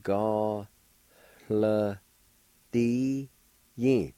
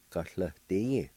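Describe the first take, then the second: First: Ga, hla, di, yin, each held apart with a faint breathy H on hla; syllable by syllable. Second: Said in the usual way. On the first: Shown as a demonstration. Teacher showing the faint H sound, slow syllable by syllable. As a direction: sound out Ga, hla, di, yin slowly, long pauses between syllables. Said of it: "a faint H or an aspirated sound like". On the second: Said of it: "like this".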